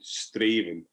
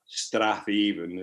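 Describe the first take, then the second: First: The name is said short, without the 'th' sound. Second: The name is said in full, with the 'th' sound. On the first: The speaker calls it right. "one of these Scottish pronunciations" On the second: The speaker calls it wrong. "not Strathaven"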